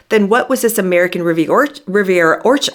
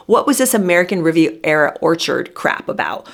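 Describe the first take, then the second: First: Quick stumble on "American Rivi-, Or-, Riviera Orchard", breaking off and restarting the name; fumbled name. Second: Said in the usual way. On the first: Real, not acted. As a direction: trip over "Riviera Orchard" mid-word and restart it. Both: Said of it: "I always fumble over it".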